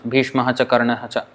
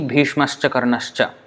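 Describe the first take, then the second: First: Each word ends in 'ha' before 'cha'. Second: Each word ends in 'sh', running into 'cha'. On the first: The words are kept separate without sound joining. The speaker calls it wrong. "if you don't put any sandhi rule" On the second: The words are joined by the sound-joining rule. The speaker calls it right. "it is easy"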